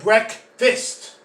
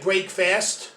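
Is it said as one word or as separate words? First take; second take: one word; separate words. First: It is said as one joined word. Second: It is said as two separate full words. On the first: The speaker calls it right. "You get breakfast" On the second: The speaker calls it wrong. "you don't get break fast"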